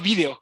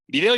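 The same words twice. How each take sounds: First: The stress is on the first syllable. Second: The stress is on the second syllable. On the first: This is the Spanish (Iberian) usage. "La voz ibérica, con acento en la I" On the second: This is the Mexican usage. "Nosotros usamos video sin acento"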